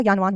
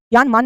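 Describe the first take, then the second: First: ज्ञानवान with "v" in the second part; correct form. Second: ज्ञानमान with "m" in the second part; wrong form. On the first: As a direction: say ज्ञानवान as "gyaan-vaan", settled. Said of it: "ज्ञानवान होता है". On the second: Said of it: "ज्ञानमान नहीं होता". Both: Shown as a demonstration.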